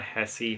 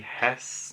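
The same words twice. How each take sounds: First: "Hesse" in two syllables, HESS-ee; rejected pronunciation. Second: "Hess" as one hushed syllable; corrected pronunciation. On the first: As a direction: end "Hesse" on an ee sound, softly. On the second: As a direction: stop "Hess" on the s, no vowel after. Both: Shown as a demonstration. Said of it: "not Hesse".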